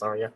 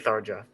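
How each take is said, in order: First: The name is pronounced the Japanese way. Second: The name is pronounced the English way. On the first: "the Japanese pronunciation is Tharja" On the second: "I would I would say Tharja"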